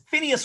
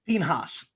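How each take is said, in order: First: The name is said the English way, Phineas. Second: The name is said the Hebrew way, Pinhas. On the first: "Phineas works just fine for us" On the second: "it's actually pronounced Pinhas"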